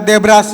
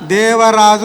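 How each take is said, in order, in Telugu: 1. ఈ పేరును B ధ్వనితో పలుకుతారు. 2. ఈ పేరును V ధ్వనితో పలుకుతారు. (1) "వాళ్ళు వా పలకలేరు... బా పలుకుతారు" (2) "దేవరాజు అనేది వాళ్ళు పలకలేరు"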